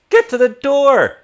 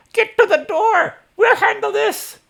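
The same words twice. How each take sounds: First: High, loud shouted command; Elsa, wrong voice. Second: Put-on very high, shouted old-woman voice; Elsa. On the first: Acted. Game master voicing a woman fighting skeletons, high shouted order. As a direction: shout it high and hard, a first try at the character. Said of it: "that's not how she sounds". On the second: Game master correcting a spry older woman's voice, very high shout. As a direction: push it way up into a piercing, loud command. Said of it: "She's like".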